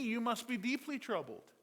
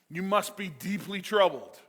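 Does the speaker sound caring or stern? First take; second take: caring; stern. First: It is said in a warm, caring tone. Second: It is said in a stern, accusing tone. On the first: The king is concerned for him. The speaker calls it wrong. "this looks like a loving king" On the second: The king is rebuking him for being sad. The speaker calls it right. "Except that's not the tone of this. The tone is"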